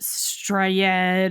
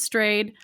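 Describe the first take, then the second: First: The name gets a foreign-sounding pronunciation. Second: The name sounds like the plain English word. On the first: The speaker calls it wrong. "I thought it was some weird uh, Norwegian name, or and so I pronounced it Strayed" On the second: The speaker calls it right. "it is pronounced Strayed"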